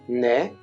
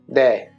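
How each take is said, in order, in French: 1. La consonne est un son n doux et léger. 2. La consonne est abrupte, proche d'un d. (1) "si on garde la douceur à la française, ça sort toujours comme un N" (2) "essaie d'être un peu plus abrupte, comme si tu forçais sur ta langue"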